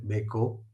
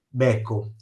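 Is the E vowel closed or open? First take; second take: closed; open. First: The E vowel is closed. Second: The E vowel is open. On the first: It means a cuckold. "l'accento quindi è acuto" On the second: It means the other word spelled the same.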